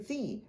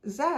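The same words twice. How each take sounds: First: It is said the American way, like zee. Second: It is said the British way, like zed.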